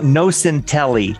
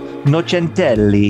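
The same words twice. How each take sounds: First: The name is said with an American accent. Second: The name is said with an Italian accent. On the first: "to say it in American" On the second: "Now we have an Italian folk singer"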